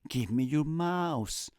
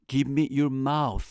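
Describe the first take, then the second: First: The last word ends with an s sound. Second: The last word ends with a th sound. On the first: It sounds like a request for a computer mouse. The speaker calls it wrong. "Supe después que quería decir en español, dame tu ratón, no dame tu boca" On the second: It is a request for a kiss. The speaker calls it right. "Me estaba enseñando cómo pronunciar el sonido de la T H en inglés"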